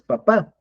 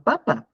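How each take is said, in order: First: Papá stressed on the last syllable, pa-PÁ; papá said as dad, pa-PÁ; papá with accent. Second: Papa stressed on the first syllable, PA-pa; papa read as the potato word, PA-pa; papa without accent. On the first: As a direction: land the stress on the final A of papá. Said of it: "no le ponías el acento en la última A". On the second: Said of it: "es papá". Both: Shown as a demonstration.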